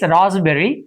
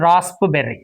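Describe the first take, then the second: First: The p sound is silent. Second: The p sound is pronounced. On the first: The speaker calls it right. "P is silent, and it's raspberry" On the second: The speaker calls it wrong. "It's not raspberry"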